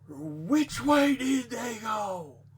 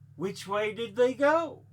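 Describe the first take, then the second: First: It is asked with fiery, strong emotion. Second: It is asked as a calm, plain question.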